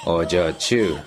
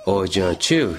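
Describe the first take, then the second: First: Pleading. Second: Gentle. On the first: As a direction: plead with her by name. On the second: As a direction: say the name as gently as you can. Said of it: "as gently as he could". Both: Acted.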